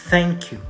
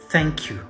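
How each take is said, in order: The two takes are said the same way.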